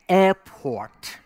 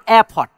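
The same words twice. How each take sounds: First: The word is said with an American accent. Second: The word is said with a foreign accent. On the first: The speaker calls it right. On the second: The speaker calls it wrong.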